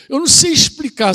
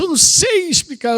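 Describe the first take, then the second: First: Said in the usual way. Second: A mild higher imitation of the woman; mock woman quote. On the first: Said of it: "quando a mulher diz que não sabe explicar". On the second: Pastor mimicking a confused woman, lightly higher. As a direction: lift "Eu não sei explicar" up high, lightly mimicking her. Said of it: "quando ela diz assim".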